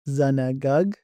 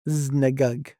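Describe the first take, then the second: First: The vowel after the first consonant is fully pronounced. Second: The vowel after the first consonant is reduced away. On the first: This is the Western dialect form. "For Western style, they'll pronounce this word" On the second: This is the Eastern dialect form. "for Eastern style, they'll pronounce it"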